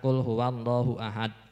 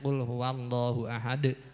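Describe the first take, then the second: First: The final d stops flat with no bounce. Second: The final d is released with a short bounce. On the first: The speaker calls it wrong. "jangan ... itu tidak ada qalqalahnya" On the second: The speaker calls it right. "harus di benar-benar jelas untuk qalqalahnya"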